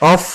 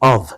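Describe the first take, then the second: First: The word ends with an f sound. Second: The word ends with a v sound. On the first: The speaker calls it wrong. "বাংলায় ফ, ফসলের ফ।" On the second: The speaker calls it right. "ভি দিয়ে হবে, ও ভি"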